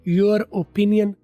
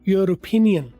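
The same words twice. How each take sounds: First: There is a break before the vowel of 'opinion'. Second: The two words run together without a break. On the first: The speaker calls it wrong. "ओपिनियन को ओ अगर अलिफ उसमें feel हो रहा है तो ये broken हो गई।" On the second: The speaker calls it right. "ये ठीक है।"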